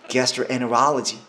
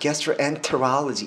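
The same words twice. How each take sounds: First: The t merges into the n sound. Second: The t after n is clearly pronounced. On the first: The speaker calls it right. "엔엔이라고 내시면 됩니다" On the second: The speaker calls it wrong. "이렇게 하면 입에 텐션을 이렇게 엄청 많이 먹잖아요"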